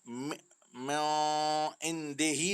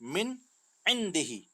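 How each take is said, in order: First: The n is hidden in a nasal sound. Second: The n is pronounced clearly without nasalization. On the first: The speaker calls it wrong. "नहीं पढ़ेंगे" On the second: The speaker calls it right. "बल्कि"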